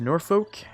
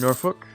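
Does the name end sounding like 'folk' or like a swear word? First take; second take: folk; swear word. First: The ending sounds like the word folk. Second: The ending sounds like a swear word. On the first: This is the speaker's usual, safe pronunciation. The speaker calls it wrong. "I'm just gonna continue calling it Norfolk" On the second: This is the pronunciation others say is correct. The speaker calls it right. "someone said it was pronounced that way, but every time I say it, I sound like I'm gonna get demonetized"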